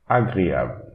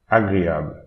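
No difference in how they are said.

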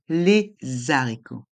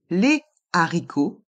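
First: A z sound links les to haricots. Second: Les and haricots stay separate, with no z sound. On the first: The speaker calls it wrong. "on ne dit pas" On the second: The speaker calls it right. "On dit"

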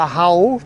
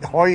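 First: The vowel sounds like 'ow'. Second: The vowel sounds like 'oy'. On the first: This is the Bremen dialect form. "In Bremen, da machen sie Hau" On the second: This is the standard German form. "Heu ist ja Hochdeutsch"

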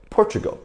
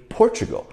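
The two takes are said the same way.

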